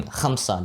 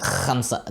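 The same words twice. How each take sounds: First: Said in the usual way. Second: Khamsa with a forced, scraping kh; mock overdone Khamsa, trying far too hard; over-exaggerated kh. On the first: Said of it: "they try to go too hard". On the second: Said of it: "overcompensate and over-exaggerate the sound".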